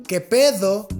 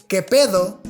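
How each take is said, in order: No difference in how they are said.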